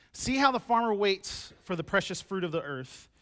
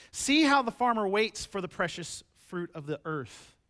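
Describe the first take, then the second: The two takes are said the same way.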